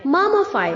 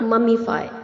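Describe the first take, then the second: First: The vowel after 'mumm' is a short 'uh'. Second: The vowel after 'mumm' is a clear 'ee'. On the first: The speaker calls it right. "जो आई है उसे pronounce नहीं करना है" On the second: The speaker calls it wrong. "Not ममीफाई"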